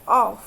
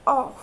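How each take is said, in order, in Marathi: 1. अंतिम f चा आवाज सॉफ्ट आणि हवेसारखा आहे. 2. अंतिम f चा आवाज सॉफ्ट आणि हवेसारखा आहे.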